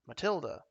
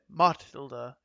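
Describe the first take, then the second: First: The stress is on the second syllable. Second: The stress is on the first syllable. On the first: The speaker calls it right. "it rolls off a tongue more like Matilda" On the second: The speaker calls it wrong. "we don't say Matilda. You know, it takes effort to say it that way"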